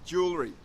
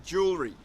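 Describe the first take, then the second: Both takes have the same delivery.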